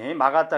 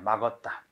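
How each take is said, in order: First: The second syllable has the bright vowel 'a'. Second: The second syllable has the dark vowel 'eo'. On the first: This is the standard form following vowel harmony. "이것도 막았다, 이거지" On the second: This is the common colloquial form that breaks vowel harmony. "막었다, 이렇게 많이들 해"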